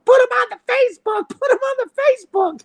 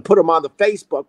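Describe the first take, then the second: First: Much higher, fast mock yell in another woman's voice; imitating a yelling neighbor. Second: Said in the usual way. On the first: Angry neighbor yelling at the parked driver, mock yell. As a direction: holler it like the angry lady on the street.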